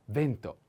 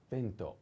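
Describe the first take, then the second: First: Vento said at normal level, stress on e; clear model word. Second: Vento said quietly, stress on e; a soft reminder of vento; softer model word. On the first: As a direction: say vento cleanly again. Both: Shown as a demonstration. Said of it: "The accent is on e".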